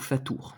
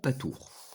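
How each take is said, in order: First: The word begins with an f sound. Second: The word begins with a p sound.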